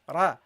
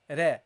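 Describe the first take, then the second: First: The r is heavy, with the tongue raised. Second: The r is light, with the tongue not raised. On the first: The speaker calls it right. "You have to pronounce it heavily" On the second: The speaker calls it wrong. "you don't say ra, ra"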